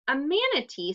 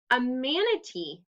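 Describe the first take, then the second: First: A touch of delighted surprise; excited cry. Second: Said in the usual way. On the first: Acted. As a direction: repeat "manatee" with lively amazement. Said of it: "Silly cried". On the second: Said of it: "the animal replied".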